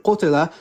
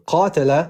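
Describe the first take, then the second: First: Qutila said with u then i, ku-ti-la; Arabic qutila, u-i vowels; qutila reading. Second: Qatala said with a at both vowels, ka-ta-la; Arabic qatala, clearly a-a-a; qatala reading. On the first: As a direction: say qutila, the passive was-killed reading. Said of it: "statement, qutila". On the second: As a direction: say qatala, the active fought reading. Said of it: "the fought reading". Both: Shown as a demonstration.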